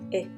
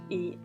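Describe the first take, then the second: First: The letter's short vowel sound is said. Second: The letter's long vowel sound is said. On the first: "The short sounds are" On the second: "the long sounds"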